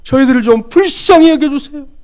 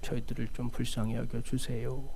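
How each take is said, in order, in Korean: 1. 크게, 절박하게 소리치고 있어요. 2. 기어들어 가는 작은 목소리로 말하고 있어요. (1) "그야말로 고래고래 소리를 지르고 있습니다" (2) "다 기어 들어가는 목소리로"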